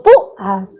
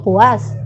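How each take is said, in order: First: PÚAS split as PÚ-as, stress on the U; "púas" with a break after the stressed U; hiatus. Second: PÚAS run together as pu-ÁS, stress on the A; "púas" mispronounced with U glided into A; wrong diphthong. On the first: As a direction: say "púas" in two separate syllables, U stressed. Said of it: "yo digo púas". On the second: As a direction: say "púas" as one syllable, rising on the A. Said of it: "Yo no digo púas". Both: Shown as a demonstration.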